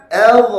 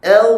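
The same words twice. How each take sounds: First: "L" as adh, higher and louder with a bounced dha; faulty release. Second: "L" as adh with a long, unreleased dha; held ending. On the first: Teacher shows what to avoid, bounced loud "L". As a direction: pop the end of "L" open into qalqalah. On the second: Teacher shows the right way, held dha on "L". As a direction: stay on the final sound of "L" without bouncing. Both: Shown as a demonstration.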